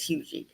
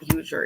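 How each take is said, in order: First: The name ends with an 'ee' sound. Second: The name ends with an 'er' sound. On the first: The speaker calls it right. "it's Hugie" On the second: The speaker calls it wrong. "Huger is not Huger"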